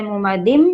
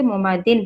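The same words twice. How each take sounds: First: M ending in मुमादिम; with idgham. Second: Plain N ending in मुमादिन; without idgham. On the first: Teacher showing the merged sound, M ending in मुमादिम. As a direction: close मुमादिम on a humming M instead of N. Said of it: "इदगाम करेंगे तो ऐसे sound निकालना है". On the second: Teacher showing the unmerged reading, N ending in मुमादिन. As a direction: end मुमादिन on a clear, unmerged N. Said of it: "अगर इदगाम नहीं करेंगे तो". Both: Shown as a demonstration.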